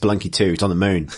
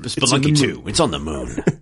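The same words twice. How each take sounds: First: It is said in a plain speaking voice. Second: It is said in a put-on announcer voice.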